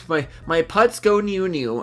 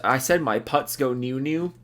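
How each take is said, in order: First: Slow, goofy sing-song on "my putts go new new". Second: Said in the usual way. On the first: Acted. Reading a viewer's silly name aloud, slow goofy sing-song. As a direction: drag out "new new" like a silly chant. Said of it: "say it in that tone". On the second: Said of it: "in that tone".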